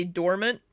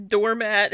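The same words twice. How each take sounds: First: "dormant" with a weak, reduced second syllable; intended pronunciation. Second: "doormat" as door plus a full "mat"; loud "doormat" with a clear second vowel; mimicked mispronunciation. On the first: Shown as a demonstration. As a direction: say "dormant" ending in an unstressed "munt". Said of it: "she meant to say". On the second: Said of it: "Did she just say it stays doormat".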